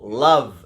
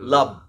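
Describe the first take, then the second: First: The middle consonant is a buzzing v sound. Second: The middle consonant is a closed b sound. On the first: The speaker calls it right. "you put it against your teeth, your upper teeth. V, v. So, for example, love" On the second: The speaker calls it wrong. "not love"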